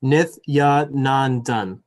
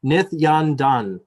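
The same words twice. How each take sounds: First: Nithyanandan very slowly as "Nith-ya-nan-dan", each syllable separate; correct, sounded-out name. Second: Nithyandandan said slowly with "dan" where "nan" belongs; mispronounced name. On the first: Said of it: "There you go". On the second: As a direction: stumble through Nithyandandan slowly, a hard d in the middle. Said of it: "always wanna put an extra syllable". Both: Real, not acted.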